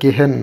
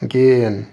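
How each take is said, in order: First: An h sound is heard in the middle. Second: No h sound is heard in the middle. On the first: The speaker calls it wrong. "এটা গেহেন না" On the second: The speaker calls it right. "এটা হলো গেয়েন গেয়েন এই ভিতরে হটা সাউন্ডটা হবে না"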